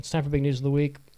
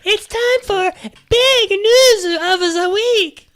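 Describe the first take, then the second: First: It is said in his own normal voice. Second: It is said imitating the jingle woman's voice.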